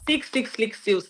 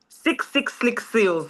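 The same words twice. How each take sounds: First: It is said at a faster pace. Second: It is said at a slower pace.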